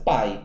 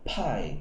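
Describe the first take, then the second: First: The P is said without a puff of air. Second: The P is said with a puff of air. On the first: "tem a mesma pronúncia do português" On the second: "o mais comum é você escutar o P de uma forma mais aspirada"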